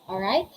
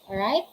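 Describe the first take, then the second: The two takes are said the same way.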